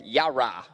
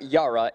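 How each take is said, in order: First: YARA as the locals supposedly say it; corrected Yara. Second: YARA said the way being rejected; the incorrect version of YARA; wrong Yara. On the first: Quoting the locals' correction, YARA in separated syllables. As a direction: YARA with the two halves, ya and ra, separated. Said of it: "it's not Yara, it's Yara". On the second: Quoting the locals' correction, wrong way of saying YARA. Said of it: "They're saying it's not Yara". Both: Shown as a demonstration.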